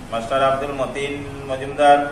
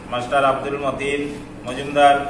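Both takes have the same delivery.

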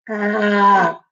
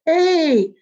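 First: The letter is said as an open 'ah' sound. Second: The letter is said as its name 'ay'. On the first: "The first sounds we learned ... are the short sounds. So A was like apple" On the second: "the long sound is A, like in the word cake"

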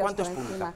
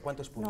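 First: The question is said at normal loudness. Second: The question is said more quietly.

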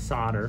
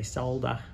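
First: The word is said in an American pronunciation. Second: The word is said in an Australian pronunciation. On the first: "that's how the Americans pronounce it" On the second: "In Australia we say solder"

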